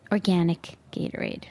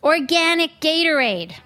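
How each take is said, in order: First: Organic Gatorade said low and soft, flat with contempt; deadpan disgust. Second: Organic Gatorade announced high and loud; big reveal. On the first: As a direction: drop it low in disbelief. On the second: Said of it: "wait for it". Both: Shown as a demonstration.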